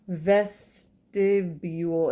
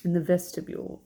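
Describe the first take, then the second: First: "Vestibule" drawn out very slowly; slow, separated syllables on "Vestibule"; sounding out. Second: Said in the usual way. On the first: Real, not acted. Reader sounds out word while searching.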